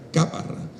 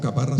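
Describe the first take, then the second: First: The stress is on the first syllable. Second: The stress is on the second syllable. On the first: This is the name of the place in Extremadura. "En Extremadura hay una caparra, pero es caparra" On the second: This is the local name of the place in Puerto Rico. "aquí le decimos caparra sin acento"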